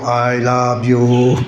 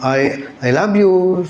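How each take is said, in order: First: It is said flatly, without emotion. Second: It is said with warm emotion.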